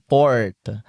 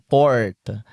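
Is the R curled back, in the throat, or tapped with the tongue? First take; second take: curled back; curled back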